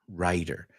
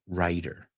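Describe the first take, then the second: Both takes have the same delivery.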